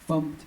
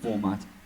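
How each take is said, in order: First: It is said as one short syllable, funct. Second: It is said as the full word format. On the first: "Feel free to pronounce this however you want" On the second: "even format"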